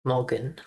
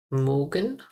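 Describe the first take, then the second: First: "Morgan" said as plain English mor-gan; saying "Morgan" the English way; practice pronunciation. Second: "Morgan" with the O mixed toward an ER sound; mixed vowel. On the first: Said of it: "When I pronounce". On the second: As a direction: blend the O of "Morgan" into ER. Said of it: "try to mix the O with E R R". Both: Shown as a demonstration.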